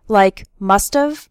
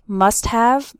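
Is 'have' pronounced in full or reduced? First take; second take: reduced; full. First: The word have is shortened and run together. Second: The word have is pronounced fully and clearly.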